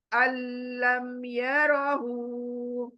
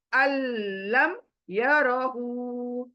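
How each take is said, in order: First: अल्लम यरहू again very slowly, merging straight into the ल्ल; slow Quranic recitation. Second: अल्लम यरहू recited very slowly, the doubled ल्ल held long; slow Quranic recitation. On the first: Teacher repeating the idgham example for students, slowly recited. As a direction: recite अल्लम यरहू drawn out with no nasal sound. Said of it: "अल अ से लाम पर". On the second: Teacher demonstrating idgham, reciting अल्लम यरहू slowly. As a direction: chant अल्लम यरहू drawn out, nun fully dropped. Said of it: "कैसे देखें". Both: Shown as a demonstration.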